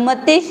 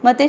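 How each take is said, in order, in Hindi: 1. अक्षर 'ti' को दीर्घ और आघात के साथ खींचा जाता है। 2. अक्षर 'ti' लघु और अनाघात है। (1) "ऐसा बोले तो उसके लिए दो मात्रा हो गई" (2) "ऐसा बोले तो आप उसकी एक ही मात्रा हो गई"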